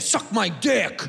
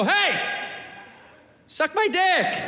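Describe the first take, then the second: First: Slow, hostile delivery; negative. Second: High-pitched, sweetly friendly offer; nice. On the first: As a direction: spit it as an insult, drawn out. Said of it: "We say it negative". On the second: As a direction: say it nicely, lifted and inviting. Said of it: "We should say it nice". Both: Shown as a demonstration.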